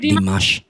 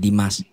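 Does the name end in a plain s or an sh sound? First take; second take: sh sound; plain s. First: The name ends with an sh sound. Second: The name ends with a plain s sound. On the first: The speaker calls it wrong. "Not Dimas" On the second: The speaker calls it right. "There is no H sound behind it. Only Dimas"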